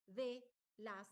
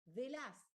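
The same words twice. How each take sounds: First: "de las" slowly split, de, then las; two separate words. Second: "de las" run together as one word. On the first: Teacher showing correct segmentation, "de las" as two words. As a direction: leave a clear gap between de and las. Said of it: "que son dos palabras". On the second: Teacher demonstrating a segmentation error, "de las" as one word. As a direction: say "de las" joined, no gap between de and las. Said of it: "todo junto". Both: Shown as a demonstration.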